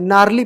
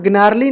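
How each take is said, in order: First: The g is silent; it starts with n. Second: The g is sounded before the n. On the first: The speaker calls it right. "नारली पढ़ेंगे, जी silent" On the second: The speaker calls it wrong. "ग्नारली नहीं"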